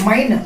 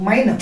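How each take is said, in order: Both takes have the same delivery.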